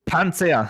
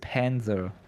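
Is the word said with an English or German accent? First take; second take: German; English. First: It is said with a harder German accent. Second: It is said with an English accent. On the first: "what's Panzer in true German?" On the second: "I'm pronouncing like with an English accent"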